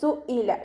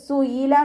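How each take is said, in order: First: The middle consonant is a glottal stop. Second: The middle consonant is a y glide. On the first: The speaker calls it right. "ഹംസയുടെ മഖ്റജ് ... സു ഇല ശ്രദ്ധിച്ചിട്ട് ഉച്ചരിക്കുക" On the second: The speaker calls it wrong. "യാ കെസ്രയായി പോവരുത് ... സുയില എന്നായി പോവരുത്"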